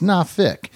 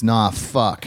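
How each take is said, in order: First: "nah fick" with a short "i" ending; Virginia Beach pronunciation. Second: "nah fuck" slow, with an "uh" in the ending; Ghent pronunciation. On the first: Host showing how Virginia Beach says Norfolk, "nah fick". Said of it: "If you're, like, close to". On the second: Host showing how Ghent says Norfolk, slow "nah fuck". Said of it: "If you're in Ghent". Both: Shown as a demonstration.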